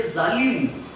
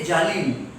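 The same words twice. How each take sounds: First: ZALIM with a buzzing z; correct Urdu z. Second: JALIM with a hard j replacing z. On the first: Shown as a demonstration. Teacher models the Urdu z sound, buzzing z in zalim. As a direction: start zalim on a true Z. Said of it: "If we have to say zalim". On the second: Retold or imitated. Teacher imitating Marathi medium students, j for z in jalim. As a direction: turn the z into J: jalim. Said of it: "they say jalim".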